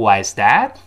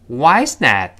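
First: The voice rises at the end. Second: The voice falls at the end. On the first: The speaker calls it wrong. "注意不要读" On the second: The speaker calls it right. "特殊疑问句最后降调"

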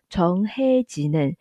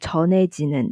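First: An h sound is heard after the first syllable. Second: The h sound is dropped and the syllables link. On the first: This is how it is sung. "他唱的时候是唱成从黑吉嫩" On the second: This is how it can be read. "也是可以读成从内吉嫩的"

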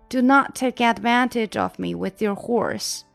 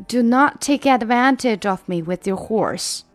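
The two takes are said the same way.

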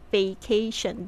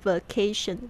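First: The first syllable 'va' is said fully and clearly. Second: The first syllable 'va' is weakened or misarticulated. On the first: The speaker calls it right. "VA 的声音特别注意一下哦" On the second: The speaker calls it wrong. "不是vacation"

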